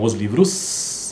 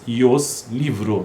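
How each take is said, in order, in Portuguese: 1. O substantivo termina com som de s. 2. O substantivo termina sem som de s.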